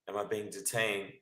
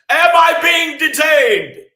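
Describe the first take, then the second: First: It is asked in a soft, warm tone. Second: It is asked in a loud, aggressive tone. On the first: The speaker calls it right. "it soft, warm, fuzzy tones" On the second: The speaker calls it wrong. "You can't gladiator it up like"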